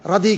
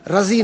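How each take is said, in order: First: The middle consonant is a d sound. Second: The middle consonant is a z sound. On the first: The speaker calls it right. "रदी कहता है हमेशा" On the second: The speaker calls it wrong. "रजी नहीं कहता"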